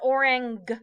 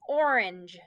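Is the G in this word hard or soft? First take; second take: hard; soft. First: The g is a hard g sound. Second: The g is a soft j sound. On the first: The speaker calls it wrong. "Not orang, right? Normally our G say G" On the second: The speaker calls it right. "it's going to make the J because it has an E after it"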